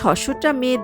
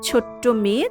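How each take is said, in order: First: The first word begins with an 's' sound. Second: The first word begins with a 'ch' sound.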